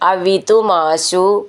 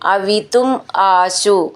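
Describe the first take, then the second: First: The two words are run together as one. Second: The two words are said separately.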